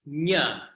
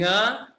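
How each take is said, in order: First: It starts with a front ny sound. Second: It starts with a back ng sound. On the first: The speaker calls it wrong. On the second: The speaker calls it right.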